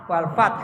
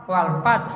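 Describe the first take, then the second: No difference in how they are said.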